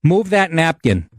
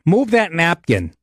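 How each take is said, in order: First: Slow, curt order. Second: Slow, curt order again. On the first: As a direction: bark it like a rude waitress. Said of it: "She goes to my buddy in this tone". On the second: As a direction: imitate the waitress, flat and bossy. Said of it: "Just like that". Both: Retold or imitated.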